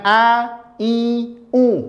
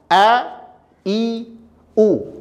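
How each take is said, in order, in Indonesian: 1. Vokal diucapkan dengan bunyi melalui hidung. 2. Vokal diucapkan dengan jelas tanpa bunyi sengau.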